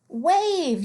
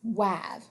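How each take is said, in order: First: The vowel is a long a sound. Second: The vowel is a short a sound. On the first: The speaker calls it right. "the A is always going to say its name" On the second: The speaker calls it wrong. "How many of you said this word might be wav?"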